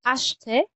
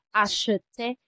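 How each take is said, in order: First: "acheter" in two syllables, ash-te; "acheter" with sh running straight into te; silent middle E. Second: "acheter" in three syllables, a-shu-te; "acheter" with an extra vowel after the sh; E sounded, wrong. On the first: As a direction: say "acheter" higher, dropping the middle E. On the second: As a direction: say "acheter" wrongly, voicing the middle E. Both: Shown as a demonstration. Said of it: "hindi natin binabangit itong E".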